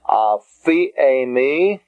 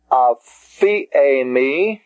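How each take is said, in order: First: Aphiemi said slowly with a rising close; slow repeat. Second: Aphiemi stretched very slowly with a rise; very slow Greek word. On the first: Teacher repeating the Greek word for students. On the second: Teacher modeling the word for students. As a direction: drag out aphiemi. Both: Shown as a demonstration. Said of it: "The next word".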